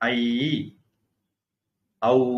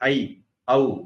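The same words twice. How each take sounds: First: Both vowels are drawn out long. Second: Both vowels are short and clipped. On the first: The speaker calls it right. "ஐ ஔ அப்படின்னு சொல்லணும். அப்பதான் ரெண்டு மாத்திரை ஆகும்" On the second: The speaker calls it wrong. "நிறைய பேர் ஐ ஔ அப்படிம்பாங்க"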